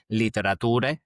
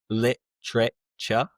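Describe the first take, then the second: First: Every syllable of the word is said fully. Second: The middle syllables are squeezed, like temperature. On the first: The speaker calls it wrong. "it's not literature" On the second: The speaker calls it right. "but rather literature, kind of like temperature"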